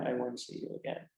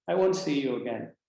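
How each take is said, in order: First: Repeated much softer and lower, fading into a farewell; quiet repeat. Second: Said in the usual way. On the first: Retold or imitated. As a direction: let the farewell sink into near hush. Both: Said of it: "And she said".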